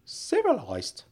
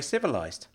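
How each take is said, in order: First: CIVILISED pitched high then falling, in disbelief; incredulous echo. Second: Said in the usual way. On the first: Acted. Uncle queries Frank's word, "Civilised" high and incredulous. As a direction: throw "Civilised" back in a high, doubting voice.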